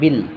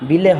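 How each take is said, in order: First: The final l stops cleanly with no vowel. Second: The final l is released with an added vowel. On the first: The speaker calls it right. "একবার উচ্চারণ হবে বিল" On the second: The speaker calls it wrong. "বিলে হবে না"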